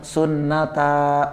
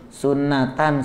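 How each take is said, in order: First: The word ends with a long drawn-out 'ta'. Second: The word ends with a full 'tan' sound. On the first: The reader stops on the word. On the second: The word is read without stopping on it.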